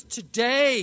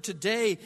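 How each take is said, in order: First: "Today" drawn out, higher and louder; emphatic "Today". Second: Said in the usual way. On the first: Shown as a demonstration. Preacher showing a word placed for emphasis, stressed "Today". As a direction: hit "Today" hard and hold it. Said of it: "at the beginning of the sentence for emphasis". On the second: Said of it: "placed at the beginning of the sentence".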